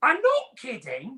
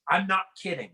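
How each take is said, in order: First: Higher, slow mock British accent. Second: Said in the usual way. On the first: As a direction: insist like a know-it-all Brit. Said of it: "their accent makes them sound like they know everything". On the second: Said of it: "with the phrase".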